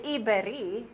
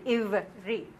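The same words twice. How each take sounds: First: "iberi" with an extra vowel, i-be-ri; wrong "iberi". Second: "ivri" in two syllables, iv-ri, no vowel between v and r; correct "ivri". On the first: Teacher showing the wrong way: "iberi" with an extra vowel. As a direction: mispronounce "iberi" on purpose, three syllables. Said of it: "You do not say". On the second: Teacher giving the right form: "ivri" in two syllables. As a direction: say "ivri" cleanly, v straight into r. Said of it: "You say ivri". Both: Shown as a demonstration.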